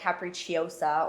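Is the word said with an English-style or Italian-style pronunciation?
English-style. It is said with an English-style pronunciation. The speaker calls it wrong. "Without saying like capricciosa"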